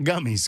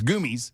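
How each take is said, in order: First: The first vowel sounds like the one in 'gum'. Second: The first vowel sounds like the one in 'food'. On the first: "not gummies" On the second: "G O O M I E S? Yes, that's goomies"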